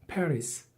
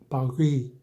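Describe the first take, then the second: First: It is said with English sounds and final s. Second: It is said with French sounds, no final s. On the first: "영어에서는 Paris 이런 식으로 발음을 붙여버리는 거죠" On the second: "빠하고 알 사운드 위 이렇게 발음하는데"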